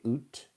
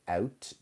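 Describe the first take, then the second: First: The vowel is a long 'oo' sound. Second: The vowel is a gliding 'ow' sound. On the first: "they say oot" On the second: "instead of saying out"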